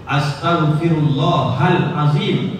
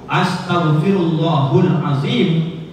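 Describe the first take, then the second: First: The vowel before azim is an a sound. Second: The vowel before azim is a u sound. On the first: We ask God for forgiveness. The speaker calls it right. "itu betul" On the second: God is told to ask us for forgiveness. The speaker calls it wrong. "itu berubah arti dan makna"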